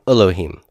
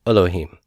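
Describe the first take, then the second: No difference in how they are said.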